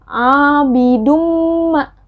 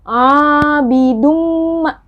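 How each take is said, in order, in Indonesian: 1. Bunyi n menyatu menjadi m ganda yang bersengau. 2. Bunyi n menyatu menjadi m ganda yang bersengau.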